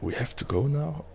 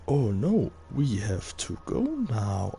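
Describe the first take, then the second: First: The line is said in a serious tone. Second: The line is said in an unconvincing tone. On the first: The danger is meant to feel real. The speaker calls it right. "sound serious" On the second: The danger does not feel real. The speaker calls it wrong. "bad actors"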